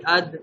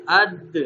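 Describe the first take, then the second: First: Said in the usual way. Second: اد with a small jolt on the د; اد with a slight echoing jerk at the end; qalqalah bounce. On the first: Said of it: "بغیر کلکلہ کے ہم اس کو پڑھیں گے". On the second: Shown as a demonstration. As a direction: give the د of اد a little rebound. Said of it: "تھوڑا سا جھٹکا دیں گے".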